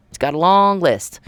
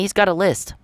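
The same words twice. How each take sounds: First: "long" stretched out and pushed; stress on LONG. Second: Said in the usual way. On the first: Real, not acted. Warning of many possible charges, stress on "long". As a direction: draw out the word "long" for emphasis. Restated with an added intensifier.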